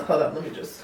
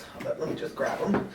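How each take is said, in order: First: Said in the usual way. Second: Breathy aside, no voice; whispering. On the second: Real, not acted. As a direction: whisper it to yourself. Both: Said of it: "repeats it under breath".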